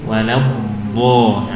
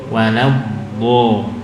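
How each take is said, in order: No difference in how they are said.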